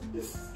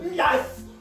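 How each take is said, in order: First: It is said in a sad voice. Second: It is said in an angry voice.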